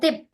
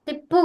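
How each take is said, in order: First: The word ends on a bare consonant. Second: The word ends with an added vowel sound. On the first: The speaker calls it right. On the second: The speaker calls it wrong.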